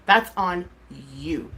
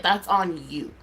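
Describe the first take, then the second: First: "That's on" firm, pause, "you" dropped low; emphatic repetition. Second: Said in the usual way. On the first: Real, not acted. Streamer putting blame on critics, "you" set apart emphatically. Repeats words, broken for emphasis.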